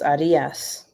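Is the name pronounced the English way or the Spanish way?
Spanish. The name is pronounced the Spanish way. "I know in Spanish it's Arias"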